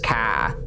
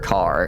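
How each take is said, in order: First: The r is dropped, Boston style. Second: The r is clearly pronounced. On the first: This is how someone from Boston says it. "she always says car" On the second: This is how that person never says it. "never car"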